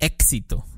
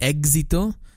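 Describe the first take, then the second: First: The x is a sharp, cutting k plus s. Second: The x starts with a soft egg-like sound. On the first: The speaker calls it right. "dices éxito" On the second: The speaker calls it wrong. "en vez de decir éxito"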